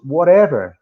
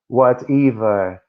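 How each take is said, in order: First: It is said with an American accent. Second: It is said with a New Zealand accent.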